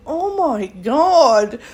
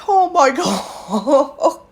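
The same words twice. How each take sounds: First: Exasperated. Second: Slow, drawn-out "oh my God" with a laugh inside; laughing disbelief. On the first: Exasperated at workers' reaction. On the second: Reacting to her worker's kind words, laughing slowly. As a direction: let the laugh break the phrase. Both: Real, not acted.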